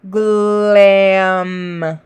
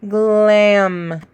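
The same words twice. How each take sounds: First: "glam" stretched without a breath; slow slide. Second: "Glam" said shorter and quicker; faster slide. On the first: Teacher modelling a slow unbroken slide. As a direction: draw "glam" out smoothly. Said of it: "not taking any breaths". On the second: Teacher answering "can you slide faster", quicker. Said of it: "Can you slide faster?". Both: Shown as a demonstration.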